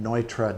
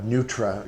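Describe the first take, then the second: First: The first syllable sounds like 'noy'. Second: The first syllable sounds like 'noo'. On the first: The speaker calls it right. "the name Neutra" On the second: The speaker calls it wrong. "they'll mispronounce the name"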